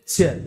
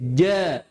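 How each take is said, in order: First: The consonant is released with a puff of breath. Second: The consonant is released without a puff of breath. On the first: The speaker calls it wrong. "jim tidak boleh ja" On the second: The speaker calls it right. "tapi ja"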